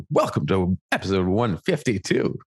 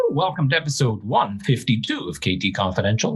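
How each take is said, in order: First: Imitating a co-host's radio announcer voice; hammed-up announcer welcome; mock radio voice. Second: Measured podcast host intro; radio voice. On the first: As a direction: put on a radio host voice, teasingly. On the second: Real, not acted. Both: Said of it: "put your radio voice on for that".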